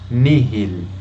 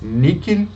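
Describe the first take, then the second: First: The middle consonant is a soft h sound. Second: The middle consonant is a hard k sound.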